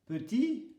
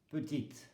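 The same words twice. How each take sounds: First: "petit" ending on the I, T left silent; higher "petit", no final T. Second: "petite" with the last T sounded, E silent; silent final E. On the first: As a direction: say "petit" without sounding the last T. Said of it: "le T ne se prononce pas". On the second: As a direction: close "petite" on a crisp T sound. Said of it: "le E ne se prononce pas". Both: Shown as a demonstration.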